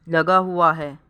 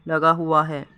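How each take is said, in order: Both takes have the same delivery.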